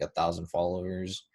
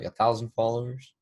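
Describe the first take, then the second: First: Said in the usual way. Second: Mildly surprised question, imitating guests; mock mild amazement; impressed surprise. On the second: Voices guests seeing his follower count.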